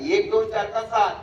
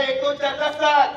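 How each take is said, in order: First: Said in the usual way. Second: Higher, lifted call to the crowd; raised, projecting question; loud prompt. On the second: Real, not acted. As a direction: push the audience to answer up. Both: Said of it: "मोठ्याने बोला".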